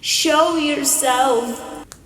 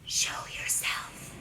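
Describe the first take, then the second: First: It is said louder. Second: It is whispered quietly.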